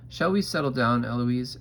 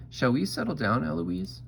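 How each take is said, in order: First: Lightly voiced reproving tutor; tutore Philip. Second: High, lilting copy rising at the end; mock the tutor in a higher voice; Eloise mimicking. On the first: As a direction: tutor calling a pupil to order, louder. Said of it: "And he says". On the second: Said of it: "And I say". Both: A narrator's reading.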